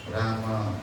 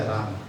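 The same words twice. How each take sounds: First: राम as raa-ma, low and soft; correct pronunciation. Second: राम ending on a half, closed m; half m, wrong. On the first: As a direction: model राम with a full a after the m. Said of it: "सही उच्चारण तो". (राम का सही उच्चारण, म पूरा) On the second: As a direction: drop the vowel after m in राम. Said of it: "आधा म नहीं होता". (राम का गलत उच्चारण, आधा म) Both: Shown as a demonstration.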